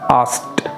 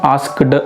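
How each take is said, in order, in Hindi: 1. इस शब्द का अंत t की आवाज़ से होता है। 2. इस शब्द का अंत d की आवाज़ से होता है। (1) "थोड़ा सा ट वाली साउंड पर ख़त्म होता है" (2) "आस्क्ड कभी नहीं कहते हैं हम लोग"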